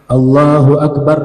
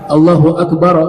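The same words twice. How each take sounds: First: Akbar ends on a bare r sound. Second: Akbar ends with an added a vowel. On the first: "ra disukunkan" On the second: "seakan-akan kayak fathah"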